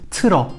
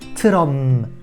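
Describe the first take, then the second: First: The word ends on a vowel, without a final m. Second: The word ends with a clear final m sound. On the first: The speaker calls it wrong. "si vous ne prononcez pas le M en bas, ça donne tro. C'est pas ça" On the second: The speaker calls it right. "Il faut un petit M à la fin"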